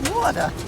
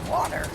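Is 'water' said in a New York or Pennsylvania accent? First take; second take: New York; Pennsylvania. First: The word is said in a New York accent. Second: The word is said in a Pennsylvania accent. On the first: "They say water" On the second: "what do you say?"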